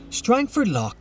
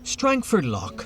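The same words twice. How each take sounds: The two takes are said the same way.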